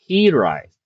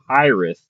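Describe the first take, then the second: First: It is said as the Welsh word, unlike high earth. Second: It sounds much like the English words high earth. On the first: The speaker calls it right. "it's based off the Welsh word that means homesick" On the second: The speaker calls it wrong. "I've been pronouncing this wrong"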